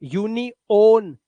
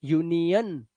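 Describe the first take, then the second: First: यूनियन slowly with a full o, yu-ni-on; the wrong way: यूनियन drawn out with a clear o; wrong o reading. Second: यूनियन with a short uh, yu-ni-uhn; correct weak ending. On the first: Teacher mocks the wrong reading, slow यूनियन with a full o. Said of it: "ना". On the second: Teacher gives pupils the right यूनियन, uhn ending. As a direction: say यूनियन with a soft uhn end. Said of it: "यूनियन ना". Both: Shown as a demonstration.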